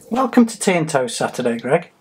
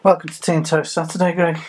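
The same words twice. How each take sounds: First: It is said in a put-on TV presenter voice. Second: It is said in his normal speaking voice.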